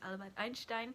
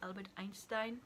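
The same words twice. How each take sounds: First: The name is pronounced with German sounds. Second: The name is pronounced with English sounds. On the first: The speaker calls it right. "but it is" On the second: The speaker calls it wrong. "as Americans say, or English people say"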